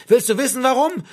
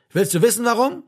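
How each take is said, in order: First: High, loud, angry demand; shouted. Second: Raised voice, pitched up; agitated challenge. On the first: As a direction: yell the question in his face. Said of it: "schrie Martin Klapp". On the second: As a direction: demand it heatedly, short of a full shout. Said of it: "wiederholte er und wurde lauter dabei". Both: A narrator's reading.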